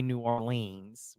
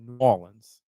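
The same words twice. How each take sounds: First: "Orleans" ending in a long LEENS; wrong pronunciation. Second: "Orleans" as AW-linz, short unstressed ending; local pronunciation. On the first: Local showing how outsiders say it, "Orleans" ending in long LEENS. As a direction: stretch the end of "Orleans" to rhyme with "beans". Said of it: "we don't say New Orleans". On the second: Local teaching the home way, "Orleans" as AW-linz. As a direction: say "New Orleans" as noo-AW-linz. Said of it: "We say New Orleans". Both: Shown as a demonstration.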